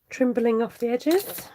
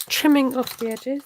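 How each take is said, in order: First: "trimbling" said with a stray b, slowly; slip of the tongue. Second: "Trimming" said cleanly and firmly, louder; corrected word. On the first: Real, not acted. Crafter misspeaking while trimming ribbon, saying "trimbling" slowly. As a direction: stumble into "trimbling" instead of "trimming". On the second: Shown as a demonstration. Crafter correcting her own slip, hitting "Trimming" clearly. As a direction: fix it: a crisp, proper "Trimming". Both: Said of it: "Should use proper English".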